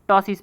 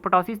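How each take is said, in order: First: The word starts with a T sound. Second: The word starts with a spoken P sound. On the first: The speaker calls it right. "इसको टॉसिस पढ़ेंगे" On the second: The speaker calls it wrong. "पी लिखा है तो पटोसिस नहीं पढ़ेंगे"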